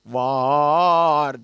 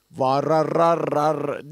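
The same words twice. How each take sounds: First: Var with one long unbroken A, very slow; right held take. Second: Vararar with the A restruck as separate syllables, slow; wrong choppy take. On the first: Teacher shows a student the right way, one long vowel. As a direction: hold a single long A in Var. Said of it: "Var dedik". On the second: Teacher shows a student the wrong way, slow and repeated. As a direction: chop the vowel into repeated ra-ra beats. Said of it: "Yoksa vararar demedik". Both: Shown as a demonstration.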